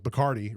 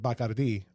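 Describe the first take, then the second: First: It is said with an American-style pronunciation. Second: It is said with a Spanish-style pronunciation. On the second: "we pronounce it"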